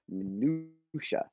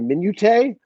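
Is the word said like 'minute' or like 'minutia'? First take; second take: minutia; minute. First: The word is said with four syllables, ending 'sha'. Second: The word is said shorter, sounding like 'minute'. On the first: The speaker calls it right. "you know what word I mispronounced forever?" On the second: The speaker calls it wrong. "A lot of people say minute"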